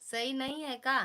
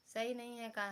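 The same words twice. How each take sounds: First: Loud, high pleading ask; loud question. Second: Said in the usual way. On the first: Real, not acted. Asking viewers if the new glasses look okay, loud and high. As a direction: call the question out loudly to viewers.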